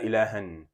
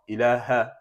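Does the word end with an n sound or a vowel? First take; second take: n sound; vowel. First: The word ends with an n sound. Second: The word ends with a short vowel. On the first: The speaker calls it wrong. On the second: The speaker calls it right.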